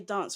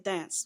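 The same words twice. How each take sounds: First: It is said in a British accent. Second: It is said in an American accent.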